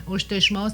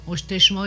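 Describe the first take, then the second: First: Oshteshmao with a clear final ao; full ending. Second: Oshteshmao said without the final u sound; clipped ending demo. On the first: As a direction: finish Oshteshmao on its last vowel. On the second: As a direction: drop the last vowel of Oshteshmao. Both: Shown as a demonstration. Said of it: "il manque un U à la fin".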